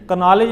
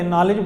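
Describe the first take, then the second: First: A k sound is pronounced at the start. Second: The word starts without a k sound. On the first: The speaker calls it wrong. "का नॉलेज नहीं पढ़ते" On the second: The speaker calls it right. "नॉलेज पढ़ते हैं"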